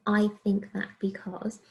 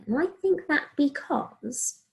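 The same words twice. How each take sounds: First: Said in the usual way. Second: Slow, emphatic "I think that because"; reasoning phrase stressed. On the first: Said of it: "I'm using". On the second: Shown as a demonstration. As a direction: lean on "think" and draw it out slowly. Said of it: "hear me saying my reasoning there".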